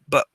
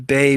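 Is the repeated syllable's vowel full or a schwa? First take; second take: schwa; full. First: The repeated syllable is reduced to a tense schwa. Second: The repeated syllable keeps a full vowel. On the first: "Everything is so tense ... just the schwa" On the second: "that nice bay sound"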